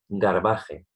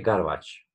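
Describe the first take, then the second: First: The word is read out as it is spelled. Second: The word is said with English pronunciation. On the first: "Lo voy a decir cómo se escribe, no es que lo pronuncie mal" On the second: "Y se dice Garbage App"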